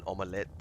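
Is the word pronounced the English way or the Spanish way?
Spanish. The word has a Spanish pronunciation. "omelette is how you pronounce it in Spanish"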